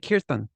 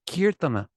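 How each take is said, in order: First: The word ends on the n, without a vowel. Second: The word ends with a short final a vowel. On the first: It is the regional Hindi form. "If you want to speak Hindi, then you should say kirtan" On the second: It is the proper Sanskrit form. "if you want to speak Sanskrit, then you should say kirtana"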